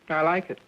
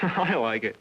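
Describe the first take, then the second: First: It sounds plain and matter-of-fact. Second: It sounds amused, with a laugh.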